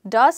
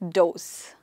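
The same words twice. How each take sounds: First: The vowel is a short uh sound. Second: The vowel sounds like the one in doe. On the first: It is a form of the verb do. "Does is the second person for do" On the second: It means more than one female deer. "in plural, uh, they are called does. Female deer"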